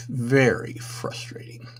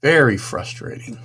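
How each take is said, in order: First: Slow whispered repeat of Very frustrating, no voice; exasperated whisper to himself. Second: Said in the usual way. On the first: Real, not acted. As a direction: breathe Very frustrating out slowly as a weary aside. Repeats phrase, second time whispered.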